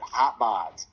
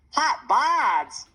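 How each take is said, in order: First: Said in the usual way. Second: High, loud squeal of disbelief. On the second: A narrator's reading. Jackson reacting to Mom's embarrassing phrase, squealing. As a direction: squeal it out like a startled little boy. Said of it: "Jackson squealed".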